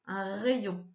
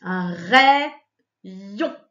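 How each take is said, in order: First: Said in the usual way. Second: "rayon" split into two long, loud syllables; syllabes détachées. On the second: Shown as a demonstration. Teacher splits word into syllables. (« rayon » en syllabes bien détachées)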